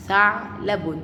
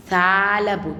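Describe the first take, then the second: First: "ثعلب" split by a pause after ع; stop on the ayn. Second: "ثعلب" said loud in one unbroken piece; sukun word, run together. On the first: Teacher repeats the sukun example, stopping at ع inside "ثعلب". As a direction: halt on the vowelless ayn in "ثعلب", then add the ending. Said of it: "انا وقفت هنا عند حرف". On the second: Teacher rereads the sukun example, "ثعلب" loud and joined up. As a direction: sound out "ثعلب" firmly without pausing inside. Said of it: "والسكون". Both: Shown as a demonstration.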